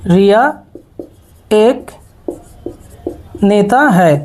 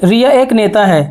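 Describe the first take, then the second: First: रिया, एक, नेता है each said alone with long pauses between; word by word. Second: Said in the usual way. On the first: Shown as a demonstration. Teacher showing students रिया एक नेता है, word by word. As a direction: give रिया एक नेता है one word at a time. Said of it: "teacher spaces out the sentence". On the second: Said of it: "teacher repeats the sentence before spacing it".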